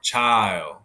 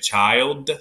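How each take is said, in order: First: The final d is barely touched, not closed. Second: The final d is fully and firmly pronounced. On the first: "don't close, don't make it hit hard" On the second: "normally you would say child"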